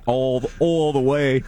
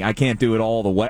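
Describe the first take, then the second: First: Stretched Philly vowels on "all the way"; slow, drawn-out Philly accent. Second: Said in the usual way. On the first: Shown as a demonstration.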